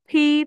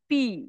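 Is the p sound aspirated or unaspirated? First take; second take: aspirated; unaspirated. First: The p is said with a puff of air. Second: The p is said without a puff of air. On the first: The speaker calls it right. "যেন মুখ থেকে একটা বাতাস বের হয়" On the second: The speaker calls it wrong. "আমরা normally পড়েছি কি পি"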